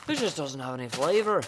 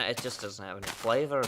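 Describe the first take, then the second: First: A vague made-up accent on It just doesn't have any flavor; unplaced accent. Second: Said in the usual way. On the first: Shown as a demonstration. Repeating her chalk complaint to a friend in a vague made-up accent. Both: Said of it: "I don't know what accent that was".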